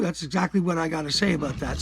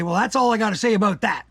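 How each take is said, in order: First: Said in the usual way. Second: A hint of a tough wrestler signing off; Stone Cold Steve Austin. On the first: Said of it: "And that's true". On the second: Quoting a wrestler to close his rant, lightly mimicking. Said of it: "as Stone Cold Steve Austin used to say".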